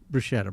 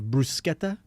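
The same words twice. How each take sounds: First: It is said with a plain American pronunciation. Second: It is said with an Italian-style pronunciation. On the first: The speaker is not trying to impress. The speaker calls it right. "just it's bruschetta, bro. I mean, you don't have to be fancy" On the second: The speaker is showing off. The speaker calls it wrong. "oh, you're one of those people"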